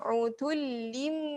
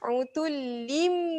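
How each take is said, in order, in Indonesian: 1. Kata ini berakhir dengan bunyi m. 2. Kata ini berakhir dengan bunyi m.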